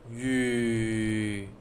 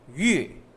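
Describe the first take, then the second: First: The pitch stays low. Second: The pitch falls from high to low. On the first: "Third is low tone" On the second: "from high to low"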